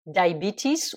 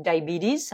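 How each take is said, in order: First: Said in the usual way. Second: American "diabetes" with the T tapped like a D; American accent. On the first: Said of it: "ou diabetes avec l'accent américain". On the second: Shown as a demonstration. Teacher giving learners the second variant, American accent. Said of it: "diabetes avec l'accent américain".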